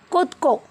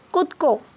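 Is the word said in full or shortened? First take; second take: shortened; shortened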